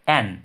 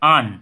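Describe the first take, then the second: First: The vowel is full and open, like 'cat'. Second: The vowel is short and reduced, like 'un'. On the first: The word carries emphasis. "এটার উপর কিন্তু একটা জোর রয়েছে" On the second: Nothing in the sentence is emphasized. "উইক ফর্মে অ্যান এর ব্যবহার আন"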